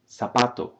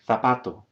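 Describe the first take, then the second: First: The z is pronounced like an s. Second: The z is pronounced like a th. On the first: This is how it is said in Latin America. "the Latin American way first" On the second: This is how it is said in parts of Spain. "in parts of Spain, we might hear this pronunciation"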